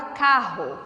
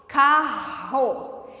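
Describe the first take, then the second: First: Said in the usual way. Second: "Carro" stretched slowly with a long breathy R; drawn-out word. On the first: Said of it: "na palavra carro". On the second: Shown as a demonstration. Teacher showing double R is one sound, stretched word. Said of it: "mas na pronúncia".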